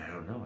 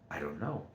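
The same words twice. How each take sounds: First: It sounds discouraged and resigned. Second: It sounds curious and eager. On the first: Not knowing feels like a failure. The speaker calls it wrong. "I don't say it like, uh, "Man" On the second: Not knowing is a chance to learn. The speaker calls it right. "It's like, ... but now I want to learn"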